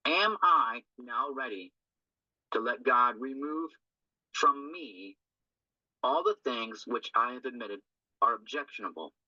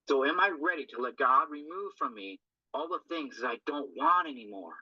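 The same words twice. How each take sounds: First: Slow deliberate reading. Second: Said in the usual way. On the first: Shown as a demonstration. Sponsor reads step question to group, slow and deliberate. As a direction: read each phrase slowly, with pauses between.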